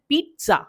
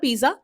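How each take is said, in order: First: The middle sound is a 'ts' sound. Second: The middle sound is a 'j' sound. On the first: The speaker calls it right. "हम पढ़ते हैं ट और स का sound mix करके, टी एस" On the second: The speaker calls it wrong. "But ये गलत है"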